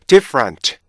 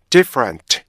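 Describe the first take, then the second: No difference in how they are said.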